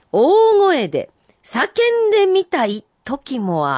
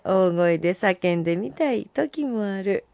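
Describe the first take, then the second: First: Higher, slow, stressed 大声; emphatic recital. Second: Said in the usual way. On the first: Acted. Host reading a listener's haiku, emphatic. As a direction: lean into 大声 slowly.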